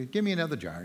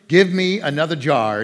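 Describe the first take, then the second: First: Soft, hesitant "Give me another jar"; tentative request. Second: "Give me another jar" called out louder, with growing excitement; she's catching on, so ask with gusto; eager demand. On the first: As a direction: ask for the next jar almost under her breath. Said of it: "she goes". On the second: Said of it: "she's catching on here". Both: Retold or imitated.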